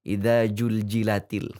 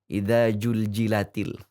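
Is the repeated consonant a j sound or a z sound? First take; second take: j sound; j sound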